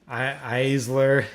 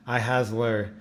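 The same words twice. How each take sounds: First: "Eisler" as a stumbled guess, without an h sound; tentative name guess. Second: "iHasler" said as eye-HAZ-ler, with a sounded h; corrected name pronunciation. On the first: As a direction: stumble on the I, then try "Eisler". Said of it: "I'm gonna butcher your name". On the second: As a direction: say "iHasler" as eye, then hazler. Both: Real, not acted.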